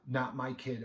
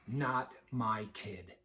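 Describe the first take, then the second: First: It sounds complacent and carefree. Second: It sounds tough, said through gritted teeth.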